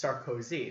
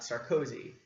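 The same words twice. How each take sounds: First: "Sarkozy" stressed on the final syllable, the French way; correct pronunciation. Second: "Sarkozy" stressed on the first syllable, the English way; "Sarkozy" mispronounced with English stress; wrong pronunciation. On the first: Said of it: "his name is pronounced". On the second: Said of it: "not Sarkozy". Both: Shown as a demonstration.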